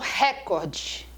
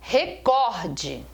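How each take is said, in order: First: The stress is on the first syllable. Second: The stress is on the second syllable. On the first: The speaker calls it wrong. "A palavra não é proparoxítona" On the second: The speaker calls it right. "Ela é uma paroxítona"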